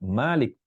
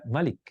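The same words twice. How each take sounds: First: The first vowel is held long. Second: The first vowel is kept short. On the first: "dibaca Malik panjang" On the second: "dibaca Malik yang pendek"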